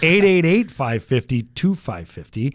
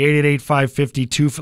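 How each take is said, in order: First: The number is said slowly. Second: The number is said fast.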